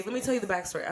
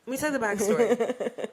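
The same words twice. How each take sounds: First: Said in the usual way. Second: Boozy mock storyteller voice; mock drunk. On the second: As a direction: ham up being drunk while telling it. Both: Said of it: "I'm, I'm drunk".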